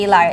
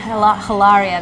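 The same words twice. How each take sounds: First: The word begins with no H sound. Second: The word begins with an audible H sound. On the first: The speaker calls it right. "So pretend there's no H" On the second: The speaker calls it wrong. "It's not even Hilaria. There is no H"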